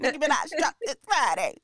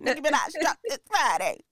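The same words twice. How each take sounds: First: It is said in an imitated rapper's delivery. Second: It is said in an imitated rapper's delivery.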